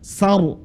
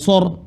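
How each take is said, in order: First: The syllable is said with a light, open vowel. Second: The syllable is said with a heavy, rounded vowel. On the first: The speaker calls it right. "huruf sa keras saja" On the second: The speaker calls it wrong. "bukan sor"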